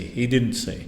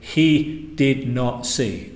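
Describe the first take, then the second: First: The words are contracted into one word, didn't. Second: The words did and not are said separately. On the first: The speaker calls it right. "They say he didn't see" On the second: The speaker calls it wrong. "people don't say he did not see"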